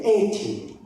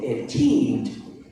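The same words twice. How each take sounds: First: "eighty" with a strong first syllable, EIGH-ty; stress on EIGHTY. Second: Put-on "eighteen" slowly, with a strong final TEEN; stress on TEEN. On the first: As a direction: punch the start of "eighty". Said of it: "when you say eighty". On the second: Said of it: "and you say eighteen". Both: Shown as a demonstration.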